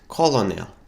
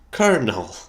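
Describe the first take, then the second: First: It is sounded out as col-o-nel. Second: It sounds like the word kernel. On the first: The speaker calls it wrong. "I would always pronounce it colonel because that's how it makes sense" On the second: The speaker calls it right. "But no, it's pronounced"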